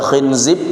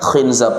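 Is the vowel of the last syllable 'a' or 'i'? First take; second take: i; a. First: The last syllable has an 'i' vowel. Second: The last syllable has an 'a' vowel. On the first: "Bisa dibaca khinzib" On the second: "bisa dibaca khinzab"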